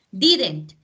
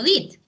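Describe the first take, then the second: First: Didn't said louder, with the n't clearly sounded; negated did. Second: Said in the usual way. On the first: Shown as a demonstration. Teacher showing her class how did becomes Didn't, clearly sounded. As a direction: land hard on the n't of Didn't. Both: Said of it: "lo que yo hago es negar el ver".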